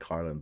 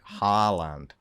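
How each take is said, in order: First: The first syllable has an r sound. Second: The first syllable has a long open vowel. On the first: This is how many people say it. The speaker calls it wrong. "I know people pronounce it like Harland" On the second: This is how the name really sounds. The speaker calls it right. "but like it's like Haaland"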